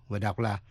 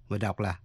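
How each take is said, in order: Both takes have the same delivery.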